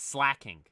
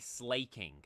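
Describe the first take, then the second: First: The first vowel sounds like in 'cat'. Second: The first vowel sounds like in 'late'. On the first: This matches the spelling of 'slack off'. The speaker calls it right. "but I believe it's slacking. Because you think slack off" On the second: This is the older way the speaker said it. The speaker calls it wrong. "I used to always say slaking"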